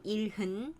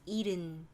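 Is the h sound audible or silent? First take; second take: audible; silent. First: The h sound is clearly pronounced. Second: The h sound is silent. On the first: "they say the strong pronunciation" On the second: "normally you just pronounce 일흔. The H sound is... silent"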